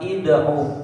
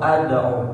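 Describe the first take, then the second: First: The word begins with an i vowel. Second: The word begins with an a vowel. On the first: "Bukan ida'u" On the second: "atau ada'u"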